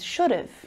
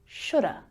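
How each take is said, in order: First: Have is reduced to a schwa with v. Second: Have becomes only a schwa, no v. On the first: "we reduce that down, it becomes should have" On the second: "that V gets dropped"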